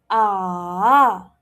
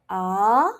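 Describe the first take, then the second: First: The pitch drops and then rises. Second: The pitch rises from low to high. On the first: "it drops and then it rises" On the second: "it has to go up because it's a rising tone"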